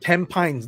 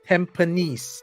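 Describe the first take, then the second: First: It is said the way most outsiders say it. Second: It is said the way locals say it. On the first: The speaker calls it wrong. "That's not Tampines" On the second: The speaker calls it right. "This is how we pronounce it"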